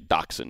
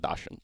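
First: The first syllable is pronounced like 'dach'. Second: The first syllable is not pronounced like 'dach'. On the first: The speaker calls it right. "I should say Dachshund" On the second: The speaker calls it wrong. "not Dachshund"

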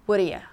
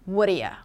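No difference in how they are said.

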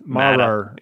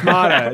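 First: The name ends with an added R sound. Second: The name ends on a vowel, no R. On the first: The speaker calls it wrong. "when Joel says it, it's Mara" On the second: The speaker calls it right. "There's no R on the end"

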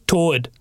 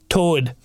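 No difference in how they are said.

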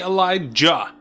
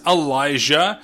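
First: The J sound is hard. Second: The J sound is soft. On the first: The speaker calls it wrong. "He keeps putting a J, like a hard J" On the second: The speaker calls it right. "Samuel Jackson says Elijah"

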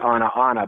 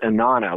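First: The two words are said separately, middle vowel kept. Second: The words run together, middle vowel dropped. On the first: "when I look on the page, I see" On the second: "the middle ah sound drops and it becomes"

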